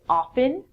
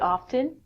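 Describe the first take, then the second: First: The T sound is silent in the middle. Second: The T sound is pronounced in the middle. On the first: "most people don't. Um, in North America, people would say often" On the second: "I actually pronounce the T sound in it"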